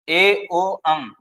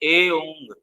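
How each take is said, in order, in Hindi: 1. हर ध्वनि अलग से बोली जाती है, उनके बीच ठहराव के साथ। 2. ध्वनियाँ बिना ठहराव के सहजता से एक साथ जुड़ी होती हैं।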